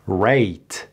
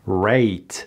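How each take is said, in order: The two takes are said the same way.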